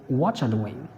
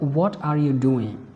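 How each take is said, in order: First: The words are squeezed together and reduced. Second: Every word is said fully and separately.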